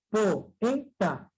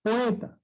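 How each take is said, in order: First: "poeta" broken up as po, e, ta; three separate beats in "poeta"; split into syllables. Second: Said in the usual way. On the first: Shown as a demonstration. ("poeta" silabeado: po, e, ta) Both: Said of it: "sílabas diferentes".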